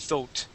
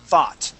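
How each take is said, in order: First: The vowel is said the British way. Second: The vowel is an open ah sound. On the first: "If you're speaking British English, that would be thoat" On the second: "in American English, we would say thaw, thought"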